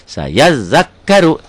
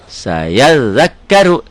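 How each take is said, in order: No difference in how they are said.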